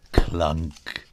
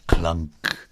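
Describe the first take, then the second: No difference in how they are said.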